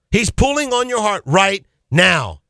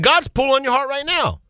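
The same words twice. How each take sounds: First: Slow, with "right" and "now" set apart; emphatic repeat. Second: High-pitched, pressing appeal; urgent appeal. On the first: Preacher repeats the appeal to listeners, slow and weighty. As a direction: draw out "pulling on your heart right now". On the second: Preacher appeals to a wavering listener, high and urgent. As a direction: press it home with the pitch lifted. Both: Real, not acted.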